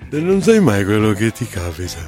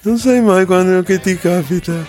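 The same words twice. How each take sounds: First: The line is delivered with little intensity. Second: The line is delivered with more intensity. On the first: The speaker calls it wrong. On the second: The speaker calls it right.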